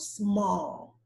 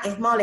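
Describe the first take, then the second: First: The word starts directly with the s sound. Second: An extra vowel sound comes before the s. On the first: The speaker calls it right. "Come in with your S, and then you add the consonant sound to it" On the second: The speaker calls it wrong. "Don't just look at the words and like, ah, es mal ... No, don't do that"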